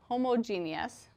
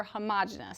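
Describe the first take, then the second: First: "homogeneous" said as hoh-moh-JEE-nee-us; homo-GEE-nee-us pronunciation. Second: "homogeneous" said as huh-MAH-juh-nus; huh-MOJ-uh-nus pronunciation. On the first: Teacher showing students one of two ways, "homogeneous" as hoh-moh-JEE-nee-us. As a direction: say "homogeneous" in five syllables, stressed on JEE. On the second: Teacher showing students the other way, "homogeneous" as huh-MAH-juh-nus. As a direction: say "homogeneous" in four syllables, stressed on MAH. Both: Shown as a demonstration. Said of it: "Sometimes it's pronounced either way".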